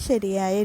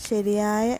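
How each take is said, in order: The two takes are said the same way.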